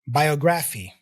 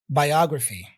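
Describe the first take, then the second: First: The stress falls on a nonstandard syllable. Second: The stress falls on the standard syllable. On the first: The speaker calls it wrong. "I misplaced the stress" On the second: The speaker calls it right. "Now let me try it again"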